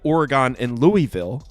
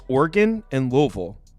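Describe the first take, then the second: First: The names are said the East Coast way. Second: The names are said the local way. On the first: This is how outsiders think it should be said. The speaker calls it wrong. "in New Jersey, people say" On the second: This is how residents want their hometowns pronounced. The speaker calls it right. "the way to say it is"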